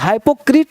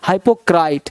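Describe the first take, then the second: First: The last vowel sounds like 'ee'. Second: The last vowel sounds like 'eye'. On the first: The speaker calls it wrong. "हाइपोक्रीट नहीं" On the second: The speaker calls it right. "आर के बाद आई है तो क्राइट"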